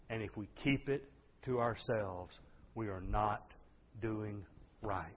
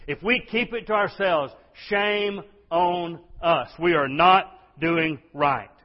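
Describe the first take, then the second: First: Soft, lower, measured words; solemn warning. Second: High, loud, slowed preaching; forceful warning. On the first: Preacher warning the church about silence, solemn and soft. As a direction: bring it down and let each phrase land. Solemn take, later repeated forcefully. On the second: Preacher shaming a silent church, forceful and loud. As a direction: hammer it out slowly at full volume. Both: Real, not acted.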